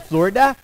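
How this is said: It is said in a Minnesota accent with an upswing.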